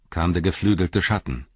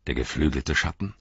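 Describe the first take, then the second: First: Said in the usual way. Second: "Der geflügelte Schatten" with a questioning rise at the end; questioning echo. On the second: A narrator's reading. Theoden queries Dunhere's report, "Der geflügelte Schatten" in a questioning rise. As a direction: repeat "Der geflügelte Schatten" as a question, rising on the last word.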